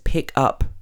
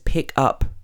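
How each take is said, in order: First: The stress is on the second part, up. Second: The stress is on the second part, up.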